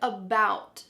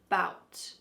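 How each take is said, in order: First: The word starts with its first vowel sound. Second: The first vowel sound is dropped from the word. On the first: "Our next word" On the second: "Sometimes we cut off the first letter A and just say bout"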